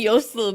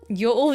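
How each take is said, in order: First: An s sound separates the two vowels. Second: The two vowels run together with no s. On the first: The speaker calls it right. "yosul has the S in there to break it up and make it flow better" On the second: The speaker calls it wrong. "just feels like too many vowels"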